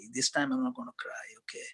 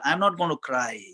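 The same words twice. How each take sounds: First: A quick private whisper of resolve; whispering a promise to himself not to cry at the wedding; whispered to self. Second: Said in the usual way. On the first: Retold or imitated. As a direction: hush it to yourself, fast. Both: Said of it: "and I told myself".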